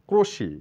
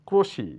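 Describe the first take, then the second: Both takes have the same delivery.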